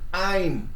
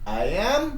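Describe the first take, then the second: First: 'I' and 'am' merge into one syllable. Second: 'I' and 'am' are said as separate words.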